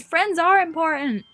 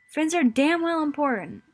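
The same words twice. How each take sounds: First: Loud, slow, insistent cry; emotional outburst. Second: Loud, pressing the point home; forceful insistence. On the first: Sayori shouting to her friend that friends matter, loud. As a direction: shout it to make him hear. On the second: Sayori pressing her friend that friends matter, forceful. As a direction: say it louder, refusing to back down. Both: Acted.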